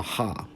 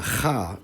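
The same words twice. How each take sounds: First: "ha" with a soft h, no scrape; softer h sound. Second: "cha" with a scraped back-of-throat kh; rasped consonant. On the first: Lecturer contrasting two Arabic letters, softer h sound. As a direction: say "ha" with open, smooth friction. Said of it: "the softer sound". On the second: Lecturer contrasting two Arabic letters, rasped kh sound. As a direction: say "cha" like the ch in Bach. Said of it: "has a cha rather than a ha". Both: Shown as a demonstration.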